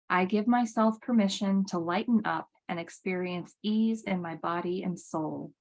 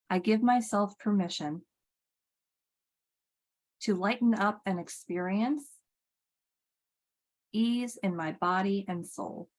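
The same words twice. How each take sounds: First: It is said at a normal pace. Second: It is said slowly.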